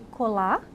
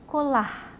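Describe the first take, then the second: First: The word ends on a plain vowel. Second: The word ends with a light breathy h. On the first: The speaker calls it wrong. "em vez de" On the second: The speaker calls it right. "uma pequena respiração associada, pronunciando levemente aquela letra"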